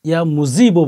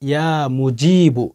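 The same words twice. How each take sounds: First: The middle consonant is a z sound. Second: The middle consonant is a j sound. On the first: The speaker calls it wrong. "ইয়া মুজিবু বলবেন না, যা উচ্চারণ করবেন না" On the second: The speaker calls it right. "জিম উচ্চারণ করবেন"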